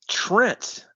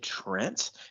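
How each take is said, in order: First: The voice falls on the name. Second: The voice rises on the name.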